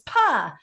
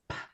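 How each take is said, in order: First: The P sound has a vowel added after it. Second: The P sound is said bare, without a vowel. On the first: The speaker calls it wrong. "my kids would come home saying P says pa" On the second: The speaker calls it right. "no, it doesn't. P says p"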